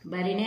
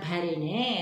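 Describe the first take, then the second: First: The first consonant is a plain unaspirated b. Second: The first consonant is an aspirated bh. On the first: The speaker calls it wrong. "బరిణే అని మనం పలకం కదా" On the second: The speaker calls it right. "భరిణే అని పలుకుతాము"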